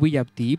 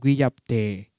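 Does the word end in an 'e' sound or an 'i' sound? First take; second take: i; e. First: The word ends in a short 'i' sound. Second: The word ends in a lengthened 'e' sound. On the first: "También pueden pronunciar guillapti" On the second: "en marca pronuncian guillapte, ¿no? Alargado al final"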